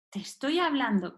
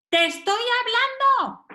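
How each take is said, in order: First: Said in the usual way. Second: High, insistent demand for attention; harsh reprimand. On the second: Acted. Parent demands a child's attention, harsh. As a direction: act out an exasperated telling-off. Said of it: "Es fuerte".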